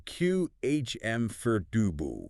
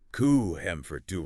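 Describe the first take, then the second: First: "Q H M for dubu" slowly, syllable by syllable; accepted variant. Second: "ku hem for dubu" with a syllable dropped; common mistake. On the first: Co-host giving another version, slow pronunciation demo. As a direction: draw out each part of "Q H M for dubu". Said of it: "and you'll hear". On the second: Co-host showing what to avoid, mispronunciation. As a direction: sound out "ku hem for dubu", shortened form. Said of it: "avoid the common mistake". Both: Shown as a demonstration.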